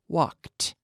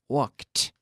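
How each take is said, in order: First: The ending is a T sound, one syllable. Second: The ending is a T sound, one syllable.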